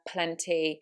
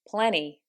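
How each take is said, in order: First: The T after the N is clearly pronounced. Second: The T after the N is dropped. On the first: "In the British accent, those, as you can hear, are said" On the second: "But in an American accent, that would be"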